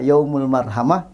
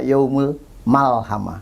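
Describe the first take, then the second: First: The middle consonant is pronounced as an R. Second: The middle consonant is pronounced as an L. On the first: The intended word, said as meant. The speaker calls it right. "sebetulnya dia mau bilang" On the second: The same word said by someone with a lisp. The speaker calls it wrong. "Kalau orang cadel ngomong ro jadi lam"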